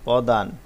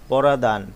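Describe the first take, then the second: First: The opening p and r form one cluster. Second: A vowel splits the opening p and r. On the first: The speaker calls it right. "প্রমিত রূপ" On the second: The speaker calls it wrong. "যেই শব্দটি প্রমিত হয়নি"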